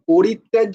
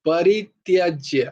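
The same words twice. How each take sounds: First: The first vowel sounds like 'o'. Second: The first vowel sounds like 'a'. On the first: The speaker calls it wrong. "পরিত্যাজ্য নয় কিন্তু" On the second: The speaker calls it right. "পো প হয় না, প"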